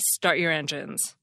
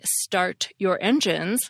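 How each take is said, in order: First: The final T of start is a glottal stop. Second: The final T of start is hard and clear.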